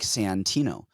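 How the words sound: It is said slowly, each syllable clearly enunciated.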